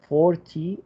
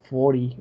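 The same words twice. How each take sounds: First: The middle T sound is clearly pronounced. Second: The middle T sound is dropped.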